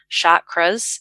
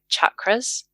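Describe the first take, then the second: First: The word begins with a softer, westernized sound. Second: The word begins with a hard ch sound. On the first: This is how Westerners usually say it. The speaker calls it wrong. "a westernized version" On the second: This follows the original Sanskrit sound. The speaker calls it right. "a Sanskrit word with a hard ch"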